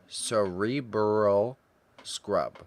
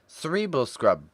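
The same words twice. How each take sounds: First: The words are said slowly with clear sounds. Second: The words run together with blurred sounds.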